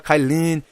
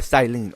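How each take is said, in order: First: The name begins with a K sound. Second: The name begins with an S sound. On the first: The speaker calls it wrong. "I thought her name was supposed to pronounce as uh, Kylene" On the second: The speaker calls it right. "her name was uh was uh, Silene"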